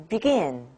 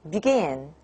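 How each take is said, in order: Both takes have the same delivery.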